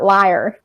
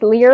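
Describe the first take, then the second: First: The name rhymes with 'fire'. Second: The name rhymes with 'beer'. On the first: The speaker calls it wrong. "it is not liar, like every other time I've mispronounced" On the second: The speaker calls it right. "This time it is Lear"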